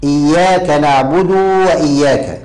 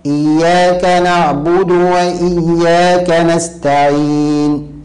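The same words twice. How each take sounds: First: نعبد stretched to "naʕbuduu" before وإياك; overlengthened damma. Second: Slow, higher chant, نعبد ending in a short "du"; drawn-out chant, "naʕbudu" unlengthened in نعبد; short, clear damma. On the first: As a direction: drag the final u of نعبد into a waw. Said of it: "ولا يقول". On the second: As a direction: recite slowly, brief u on نعبد, long close on نستعين. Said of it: "الصواب". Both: Shown as a demonstration.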